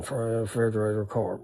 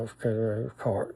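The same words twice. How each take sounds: First: Quietly repeating words to himself under his breath; muttered under breath. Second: Quiet, murmured repetition to himself under his breath; under breath again. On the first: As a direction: say the words softly under your breath to remember them. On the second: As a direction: keep muttering the words softly. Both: Retold or imitated. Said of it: "under my breath".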